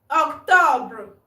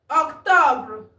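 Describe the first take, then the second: The two takes are said the same way.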